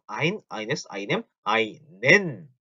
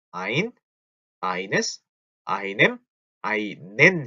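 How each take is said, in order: First: Quick recitation. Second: One word at a time, with pauses; slowed-down recitation. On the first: Teacher recites endings for learners, quick list. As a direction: run through the article endings, landing hard on "einen". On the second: Teacher slows down for learners, spaced word by word. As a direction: separate each article, stretching out "einen". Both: Shown as a demonstration. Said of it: "너무 빠른가요?".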